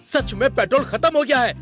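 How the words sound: It is said in a confident way.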